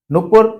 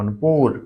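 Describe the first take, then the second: First: नुपुर quick and louder, both u short; wrong short vowels. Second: नुपुर lower, with long oo in the second syllable; correct long vowel. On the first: Teacher quoting the wrong word, नुपुर with short vowels. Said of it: "गलत क्यों है?". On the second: Teacher giving the corrected word, नुपुर with long oo. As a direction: say नुपुर as nu-POOR, stretched. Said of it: "बड़ा होगा". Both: Shown as a demonstration.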